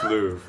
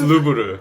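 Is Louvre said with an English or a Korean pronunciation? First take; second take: English; Korean. First: It is said with an English pronunciation. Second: It is said with a Korean pronunciation. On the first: "in English, it's Louvre" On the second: "In Korean, it's Louvre"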